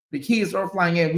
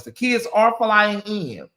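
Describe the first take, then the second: First: Said in the usual way. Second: Slow, stressed, with weight on "are"; emphatic. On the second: Shown as a demonstration. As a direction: lean on "are", slowly.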